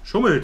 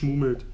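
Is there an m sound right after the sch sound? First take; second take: no; yes. First: It starts with a plain sch sound. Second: An extra m sound follows the sch. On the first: The speaker calls it right. "Schummelt heißt es" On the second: The speaker calls it wrong. "nicht schmummelt"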